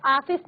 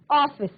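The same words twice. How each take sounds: First: ऑफिस with a plain open "aa", like "aaphis"; ऑफिस said as "aaphis" with an aspirated ph; wrong way to say it. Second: ऑफिस with the rounded ऑ, like English "office"; ऑफिस said "office" with a half-open rounded vowel; correct pronunciation. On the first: Teacher shows students the wrong pronunciation, open aa. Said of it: "ऑफिस नहीं बोलना है". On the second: Teacher models the right sound, rounded ऑ. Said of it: "अर्धचंद्राकार मात्रा है उसके साथ उच्चारण करना है". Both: Shown as a demonstration.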